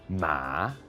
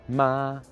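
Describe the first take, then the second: First: The pitch dips down and then rises again. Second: The pitch stays high and level throughout. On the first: "goes from kind of a high thing down and then back up again" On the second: "Doesn't go up, doesn't go down, just stays the same"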